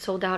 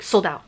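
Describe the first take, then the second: First: It sounds soft and apologetic. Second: It sounds condescending, as if to a slow listener. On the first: The seller feels bad about it. "it's not like he's like, oh, I'm so sorry" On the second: The listener is treated as unable to understand. "basically talking to you like you're an idiot that doesn't understand"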